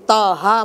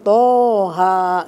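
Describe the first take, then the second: First: The first syllable has a plain, light 'ta' sound. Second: The first syllable has a heavy, 'to'-like sound. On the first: The letter is misread, so the meaning changes. The speaker calls it wrong. "kalau ibu bacanya di ta seperti taha" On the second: The letter is read as written in the original script. The speaker calls it right. "padahal bacaan toha gitu"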